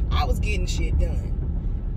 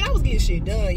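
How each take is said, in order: First: Drawn out, leaning on was; slow emphatic repeat. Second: Said in the usual way. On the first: Real, not acted. Telling viewers how productive she was, slow and emphatic. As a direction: stretch out "I was getting shit done", hitting "was". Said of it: "slow emphatic repeat". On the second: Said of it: "repeats phrase for emphasis".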